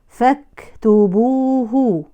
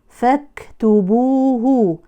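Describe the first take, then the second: Both takes have the same delivery.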